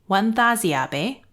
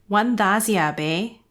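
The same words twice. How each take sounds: Both takes have the same delivery.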